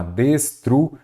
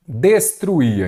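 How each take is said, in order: First: "Destruía" broken slowly as des... tru... í-a; split into syllables. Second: Said in the usual way. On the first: Shown as a demonstration. Teacher dividing a verb for students, "Destruía" syllable by syllable. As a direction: pause between the syllables of "Destruía". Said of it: "Então, vamos lá". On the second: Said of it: "vamos separar em sílaba".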